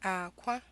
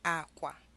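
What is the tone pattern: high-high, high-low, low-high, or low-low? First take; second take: low-high; low-low. First: A low tone is followed by a high tone. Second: Both syllables have a low tone. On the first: It means egg. "a low tone and a high tone" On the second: It means bed. "two low tones"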